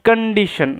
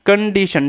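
Both takes have the same delivery.

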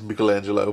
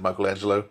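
First: The name is pronounced the Italian way. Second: The name is pronounced the Australian English way. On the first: "Italian is Michelangelo" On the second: "I've always said Michelangelo. But I'm Australian"

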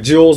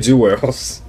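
First: The word is said with a standard pronunciation. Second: The word is said with a Southern pronunciation. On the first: This is how outsiders say it. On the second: This is how people from the South say it.

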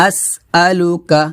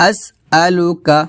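The two takes are said the same way.

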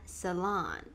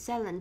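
First: The word is said with an American pronunciation. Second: The word is said with a British pronunciation. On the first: "cô sẽ phát âm theo kiểu American English" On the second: "đó là cách phát âm của British English"

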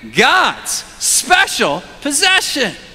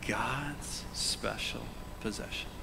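First: The phrase is said loudly and with energy. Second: The phrase is said quietly and softly. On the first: The speaker calls it right. "Let's say it with a lot of gusto" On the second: The speaker calls it wrong. "I said that kind of quietly to try to emphasize it"

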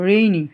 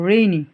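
Both takes have the same delivery.

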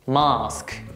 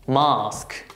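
First: It is said with British pronunciation. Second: The same.

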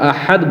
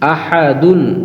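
First: The word ends on a bare d sound. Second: The word ends with a full -un ending. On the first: The reader stops at the end of the verse. The speaker calls it right. "ওয়াকফের সময় এখানে যেহেতু আমরা থামবো, ওয়াকফ করব, তখন আমরা আহাদ বলবো।" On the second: The reading continues without a stop. The speaker calls it wrong. "কিন্তু আমরা আহাদুন বলবো না।"

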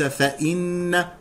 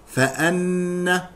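First: The hamza is followed by an 'i' vowel. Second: The hamza is followed by an 'a' vowel. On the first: The speaker calls it wrong. "وليس فإن" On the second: The speaker calls it right. "فأن هكذا"

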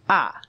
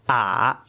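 First: The pitch falls sharply from high. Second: The pitch dips low, then rises.

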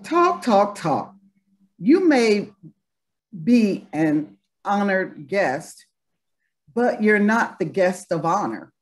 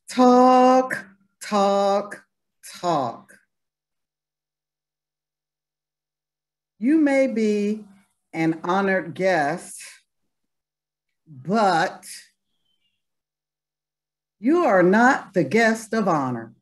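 First: It is said quickly and with sass. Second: It is said slowly and with restraint.

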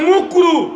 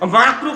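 First: The first vowel is a rounded 'u' sound. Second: The first vowel is an open 'a' sound. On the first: This is how the cleric garbles the word. The speaker calls it wrong. "বলে বলে মুকরু" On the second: This is the proper Arabic form of the word. The speaker calls it right. "মাকরু কথাটা ঠিকভাবে বলে না"

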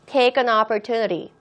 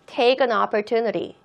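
First: The words are said smoothly, linked together. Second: The words are said smoothly, linked together.

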